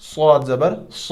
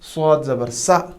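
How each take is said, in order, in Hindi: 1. आख़िरी अक्षर की आवाज़ भारी लगती है, गोल मुँह के साथ। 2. आख़िरी अक्षर की आवाज़ हल्की लगती है, जैसे सादा sa। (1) "ये हैवी साउंड है।" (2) "तीन ही साउंड्स का हम एक ही साउंड निकालते हैं, लेकिन ये ऐसे नहीं है।"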